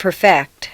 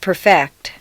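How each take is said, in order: First: The stress is on the second syllable. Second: The same.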